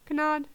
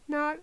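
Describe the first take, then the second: First: The word begins with a hard G sound. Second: The word begins with a plain N sound. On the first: The speaker calls it wrong. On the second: The speaker calls it right.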